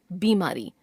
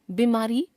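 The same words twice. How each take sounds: First: Said in the usual way. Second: बीमारी with short first इ, rising; wrong pronunciation. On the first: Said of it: "शुद्ध". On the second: Shown as a demonstration. Teacher showing a common error, बीमारी with short first vowel. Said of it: "अशुद्ध".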